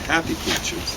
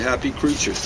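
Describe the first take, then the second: First: The stress falls on the word happy. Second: The stress falls on the word creatures. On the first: The speaker calls it wrong. "We don't say happy creatures. As opposed to unhappy creatures" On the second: The speaker calls it right. "We say happy creatures"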